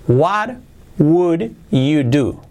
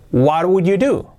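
First: "What would you do?" very slow, word by word; slow word-by-word model. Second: Said in the usual way. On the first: Shown as a demonstration. Teacher models the question for Spanish-speaking learners, slow and separated.

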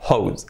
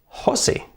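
First: "hose" as one syllable, HOHZ; English pronunciation. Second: "hose" read HO-seh, Spanish style; two syllables for "hose", rasped Spanish h; read as spelt. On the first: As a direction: rhyme "hose" with "those". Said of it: "y manguera hose". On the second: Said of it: "se escribe Jose". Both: Shown as a demonstration.

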